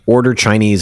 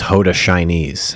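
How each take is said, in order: First: It is said in the speaker's plain accent. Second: It is said in a Nigerian accent.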